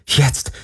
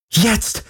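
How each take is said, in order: First: Said in the usual way. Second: High rising urgent Jetzt; urgent cry. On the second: Acted. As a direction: Jetzt pushed up high and pleading. Silent desperate plea in thought.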